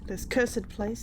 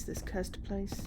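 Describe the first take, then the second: First: "cursed" said in two syllables, curs-ed. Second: "cursed" said as one syllable, curst. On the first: Player showing how someone pronounces it, "cursed" as curs-ed. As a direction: sound the E in "cursed" as its own syllable. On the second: Player contrasting pronunciations, "cursed" as one-syllable curst. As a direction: keep the E in "cursed" silent. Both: Shown as a demonstration. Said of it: "how someone pronounces it".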